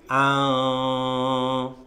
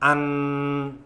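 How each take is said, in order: First: The n sound is hidden, blurred and nasal. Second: The n sound is pronounced clearly and fully. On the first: The speaker calls it right. "nunnya itu sudah samar-samar" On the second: The speaker calls it wrong. "itu nunnya jelas"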